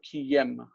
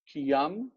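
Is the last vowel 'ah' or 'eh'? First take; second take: eh; ah. First: The last vowel is an 'eh' sound. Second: The last vowel is an 'ah' sound. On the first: This is the modern form. "in modern Hebrew we say kiyem with a tsere" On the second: This is the biblical form. "Kiyam is what we see in the Bible"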